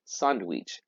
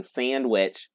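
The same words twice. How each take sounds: First: Sandwich said the Spanish way, open a, soft d, ending in a ch sound. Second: Said in the usual way. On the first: Shown as a demonstration. Teacher showing sandwich pronounced Spanishly. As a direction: say sandwich with Spanish vowels, SAHND-weech. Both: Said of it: "we're gonna say it Spanishly".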